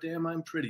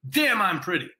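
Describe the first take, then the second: First: It is said flatly, without much energy. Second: It is said with lively, playful energy. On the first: The speaker calls it wrong. "You can't go" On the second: The speaker calls it right. "You got to say"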